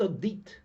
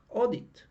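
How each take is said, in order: First: The stress is on the second syllable. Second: The stress is on the first syllable. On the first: The speaker calls it wrong. "It's not audit" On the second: The speaker calls it right. "the stress does not fall on the last syllable"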